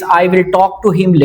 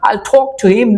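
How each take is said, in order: First: It is said plainly, without a put-on accent. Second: It is said with an affected, put-on accent. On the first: The speaker calls it right. "इसमें accent नहीं है" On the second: The speaker calls it wrong. "मैं थोड़ा accent sensitive था कि मैं इस तरह कहता था"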